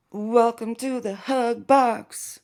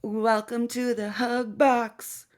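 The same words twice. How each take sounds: First: Slower high sarcastic welcome; mock welcome. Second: High sarcastic welcome; mock the group's cozy tone. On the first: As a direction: stretch "Welcome to the hug box." like a fake host. Repeated slower.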